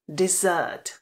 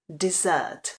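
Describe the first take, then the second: No difference in how they are said.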